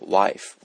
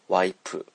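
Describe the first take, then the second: First: The word ends with an f sound. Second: The word ends with a p sound. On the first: This is the original English word. "英語のワイフから来ている言葉" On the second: This is the Korean way of saying it. "韓国語ではこのF の発音をP の音で代用します"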